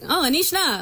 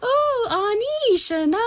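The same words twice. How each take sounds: First: It is said in a flat, monotone pitch. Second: It is said with lively, varied pitch.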